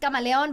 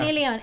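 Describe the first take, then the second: First: The name is said with Spanish pronunciation. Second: The name is said with English pronunciation. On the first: The speaker calls it wrong. "everybody is like, it's Camaleon, but it's not Camaleon" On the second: The speaker calls it right. "Because we are not talking in Spanish. It's Chameleon"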